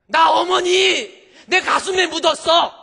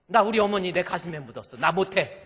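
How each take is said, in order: First: Slow, high, full-force scream; hammed-up screaming grief and fury; anguished shout. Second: Raised, higher voice without screaming; firm aggrieved refusal. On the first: Daughter-in-law who buried her mother, slow anguished scream. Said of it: "이렇게 소리 지를 일은 아닌데". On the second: Retold or imitated. Daughter-in-law who buried her mother, firm aggrieved refusal. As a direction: insist on refusing, wronged and loud. Same grievance, below the scream.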